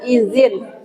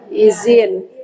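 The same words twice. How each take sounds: First: The middle consonant is a voiced th sound. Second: The middle consonant is a plain z sound. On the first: "Dia sebenarnya pakai zal" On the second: "Di bahasa Indonesia jadi pakai z ya"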